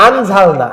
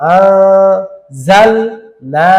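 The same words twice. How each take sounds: First: Said in the usual way. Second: আ held long and nasal before জাল; slow, parted আ, জাল না with hidden n; ikhfa pronunciation. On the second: Shown as a demonstration. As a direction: hum the ghunnah on আ. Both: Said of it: "আনঝালনা হয়ে যাচ্ছে".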